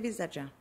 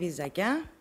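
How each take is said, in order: First: The consonant before the last syllable is tz. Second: The consonant before the last syllable is k. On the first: This is how older villagers say it. "οι πιο παλιοί προτιμούν το βυζατζά" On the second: This is how younger villagers say it. "Οι πιο νέοι προφέρουν το βυζακιά"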